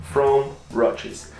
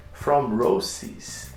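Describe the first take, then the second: First: "Roches" with a ch sound in the middle; real slip, "Roches" said with ch for s; mispronounced brand name. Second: "Roces" with an s sound in the middle; self-correction, "Roces" said with a hissed s in the middle; corrected brand name. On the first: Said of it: "I keep saying it wrong". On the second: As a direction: say "Roces" with s, not ch. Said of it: "that's how you pronounce it". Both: Real, not acted.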